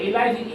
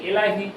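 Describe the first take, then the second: No difference in how they are said.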